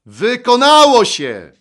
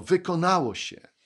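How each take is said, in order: First: Huge, high, drawn-out shout; loud triumphant cry. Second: Said in the usual way. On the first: Acted. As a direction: shout it out slowly at full voice. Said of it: "Co takiego Jezus zawołał donośnym głosem?". (głośny, przeciągły okrzyk) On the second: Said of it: "powiedział".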